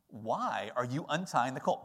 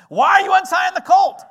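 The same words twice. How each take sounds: First: The question is read in a plain, neutral tone. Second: The question is acted in a challenging, suspicious tone.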